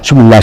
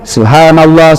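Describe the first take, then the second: First: The word is rushed and slurred together. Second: The word is said slowly and clearly. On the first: The speaker calls it wrong. "Tidak jelas apa yang Bapak ucapkan" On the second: The speaker calls it right. "Perjelas, ucapkan dengan baik"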